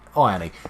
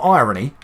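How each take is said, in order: First: It is said eye-urn-ee, like iron plus ee. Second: It is said eye-ruh-nee, with a short middle. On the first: It means made of iron. The speaker calls it right. "Looks like it's made of iron" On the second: It means sarcastic or ironic. The speaker calls it wrong. "Not irony, not ironic"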